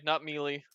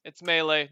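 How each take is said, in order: First: "melee" as MEE-lee; "melee" with a long ee, mee-lee. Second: "melee" as MAY-lay; "melee" with a French may-lay sound. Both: Shown as a demonstration.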